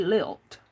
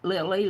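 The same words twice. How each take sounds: First: Lilt, one short syllable ending in a crisp t; correct word lilt. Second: Lily, the wrong word, said plainly; misread as lily. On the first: Correcting the chat from lily to lilt, lilt said clearly. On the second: Setting the chat straight on the misread word, lily said plainly. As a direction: say lily as the wrong reading to contrast with lilt. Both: Shown as a demonstration. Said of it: "Not lily, lilt".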